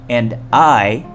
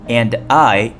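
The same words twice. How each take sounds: No difference in how they are said.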